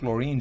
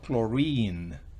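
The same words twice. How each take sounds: First: The final vowel is short. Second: The final vowel is long. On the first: The speaker calls it wrong. "No digo chlorine" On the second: The speaker calls it right. "sino chlorine"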